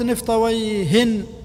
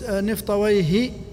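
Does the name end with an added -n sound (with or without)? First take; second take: with; without. First: The name ends with an added n sound. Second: The name ends without a final n sound. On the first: It refers to anyone who has this name. "نكرة" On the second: It refers to one specific well-known person. "هذا معرفة"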